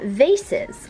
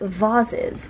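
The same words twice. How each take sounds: First: The word is said in her own usual way. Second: The word is said in a Northern Irish-influenced way.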